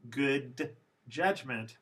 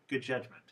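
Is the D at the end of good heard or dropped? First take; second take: heard; dropped. First: The D sound at the end of good is pronounced. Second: The D sound at the end of good is dropped.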